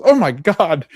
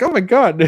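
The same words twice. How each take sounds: First: Startled gasp. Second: Much higher, louder mock yell of shock; startled yell. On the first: Retold or imitated. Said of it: "She, like, goes". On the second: Jimmy yelling in shock at Sophie on the porch. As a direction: yelp it like someone just surprised you. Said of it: "somebody yelling in my face".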